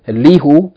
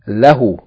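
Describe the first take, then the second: First: The first vowel is i. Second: The first vowel is a. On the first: The speaker calls it wrong. "you don't say" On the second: The speaker calls it right. "you say"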